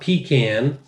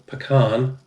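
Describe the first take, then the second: First: The word is said like 'pee can'. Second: The word is not said like 'pee can'. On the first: It names a can for urinating in. The speaker calls it wrong. "not pecan" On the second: It names the nut. The speaker calls it right. "pecan, pecan"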